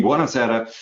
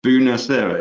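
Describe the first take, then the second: First: Said in the usual way. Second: A light Italian accent on Buonasera, rolled and sung out; hint of an Italian accent. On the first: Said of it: "I think the way you pronounced it". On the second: Shown as a demonstration. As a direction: say Buonasera with a little Italian flair. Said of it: "I love the way you put a little bit of accent on that".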